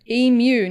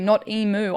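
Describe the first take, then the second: First: The word ends with a 'myoo' sound. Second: The word ends with a 'moo' sound. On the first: The speaker calls it right. "I know emu, emu" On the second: The speaker calls it wrong.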